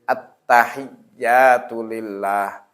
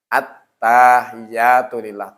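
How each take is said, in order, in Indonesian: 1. Vokal pada 'ta' dibaca pendek. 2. Vokal pada 'ta' dibaca panjang. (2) "Taknya jadi panjang. Itu sudah berubah makna"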